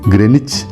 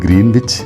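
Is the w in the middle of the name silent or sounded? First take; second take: silent; sounded. First: The w is silent, with a short first vowel. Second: The w is sounded, with a long first vowel. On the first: The speaker calls it right. "ഇതിൻ്റെ ശരിയായ ഉച്ചാരണം ഗ്രെനിച്ച് എന്നാണ്" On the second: The speaker calls it wrong. "നമ്മളിത് ഗ്രീൻവിച്ച് എന്ന് വായിക്കുമെങ്കിലും"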